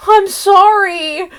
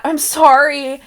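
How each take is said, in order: First: High, slow, small I'm sorry; mock hurt apology. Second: Said in the usual way. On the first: A daughter answering a yelling mom, mock hurt. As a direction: say it like a scolded kid. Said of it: "her mom, like, yells at her and she goes". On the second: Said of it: "right up there with Abby's".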